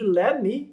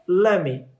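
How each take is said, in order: First: Both words are said fully and separately. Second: The words are blended into lemme. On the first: "a contração de let me"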